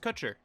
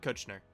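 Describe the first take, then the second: First: The name ends in 'cher' with no 'n' sound. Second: The name has an 'n' sound before 'er'. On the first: The speaker calls it right. "His last name is Kutcher" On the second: The speaker calls it wrong. "not Kuchner"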